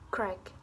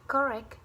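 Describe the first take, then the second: First: The first syllable's vowel is dropped entirely. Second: The first syllable keeps its weak vowel.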